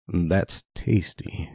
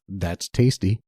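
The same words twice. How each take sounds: First: It is said in a creepy, suggestive tone. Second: It is said in a plain, normal tone.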